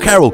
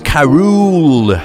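First: The name is said with a short o. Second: The name is said with a long o. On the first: The speaker calls it wrong. "it's not Carol" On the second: The speaker calls it right. "like with more O's"

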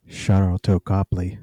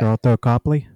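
First: It is said slowly and sultrily. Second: It is said at a normal pace.

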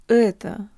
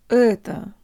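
The two takes are said the same way.

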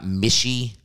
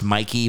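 First: The middle consonant is an sh sound. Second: The middle consonant is a k sound. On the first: The speaker calls it wrong. "not Mishy" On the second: The speaker calls it right. "It's pronounced Mikey"

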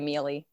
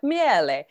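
First: The name is pronounced the American way. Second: The name is pronounced the Italian way. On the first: This is how the family actually says the name. "So we just say Miele" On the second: This is the original form of the family name. "it's Italian, so I'm sure it's like Miele"

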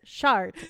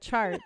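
First: The word begins with a soft, sh-like sound. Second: The word begins with a hard ch sound. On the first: This imitates how a second-language speaker says it. "it's a very soft CH, and so she says chart" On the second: This is the usual English pronunciation. "instead of chart"

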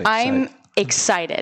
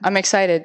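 First: It is said with intense excitement. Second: It is said flatly, without excitement.

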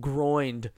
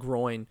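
First: The word ends with an added d sound. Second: The word ends in an n sound. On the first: The speaker calls it wrong. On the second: The speaker calls it right.

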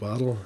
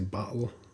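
First: The word is said with a standard accent. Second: The word is said with a New Jersey accent. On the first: "instead of bottle" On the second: "they say I say bottle"

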